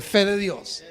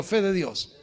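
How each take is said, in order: First: Fe de Dios called out loud and firm; louder on command. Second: Said in the usual way. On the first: Shown as a demonstration. Pastor leads church shouting fe de Dios, loud. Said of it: "Dígalo fuerte". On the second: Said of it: "diga conmigo".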